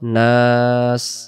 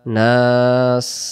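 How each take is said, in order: No difference in how they are said.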